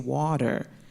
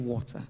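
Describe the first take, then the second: First: It is said in an American accent. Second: It is said in her natural, non-American accent.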